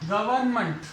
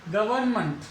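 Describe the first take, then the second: The two takes are said the same way.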